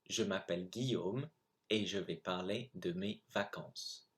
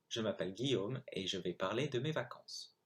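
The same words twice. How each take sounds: First: It is read at a normal reading pace. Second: It is read at a much faster pace. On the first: "I'm going to read the text again" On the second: "I'm going to go much faster"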